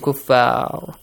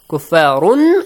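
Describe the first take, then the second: First: The word ends on the r sound. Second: The word ends with an -un sound. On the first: The reading stops at this word. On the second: The reading continues into the next word.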